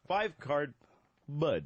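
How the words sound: There is a pause before bud.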